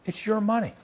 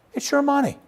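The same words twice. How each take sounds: First: Indignant. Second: "your" punched much higher and louder; stress on YOUR. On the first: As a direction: stress on "money", voice pitched well up. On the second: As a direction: hammer the word "your" in outrage. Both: Retold or imitated. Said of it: "you may not want to have quite that tone".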